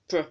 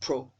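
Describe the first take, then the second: First: The vowel is reduced and weak. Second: The vowel is full and stressed. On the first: The speaker calls it right. "this word should be pr" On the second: The speaker calls it wrong. "and not pro. If you pronounce it as pro, you're putting a stress mark"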